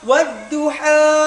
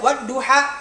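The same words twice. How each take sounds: First: The final vowel is drawn out smoothly. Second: The final vowel is cut off abruptly. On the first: The speaker calls it right. "Jadi belakangnya air mengalir" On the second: The speaker calls it wrong. "tidak boleh dibaca wadduha kayak dipotong, itu salah"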